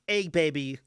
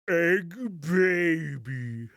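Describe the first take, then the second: First: It is said at normal speed. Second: It is said slowly and lower.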